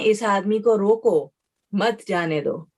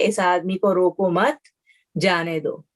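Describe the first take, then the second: First: The pause comes after the word 'roko'. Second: The pause comes after the word 'mat'.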